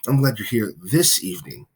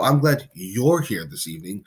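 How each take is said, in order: First: The word this carries the main stress. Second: The word you're carries the main stress. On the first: The person came on this particular day. "now you're you're happy that they are there on this particular day" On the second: This particular person is welcome, unlike others. "means that you are glad that the person specifically is there"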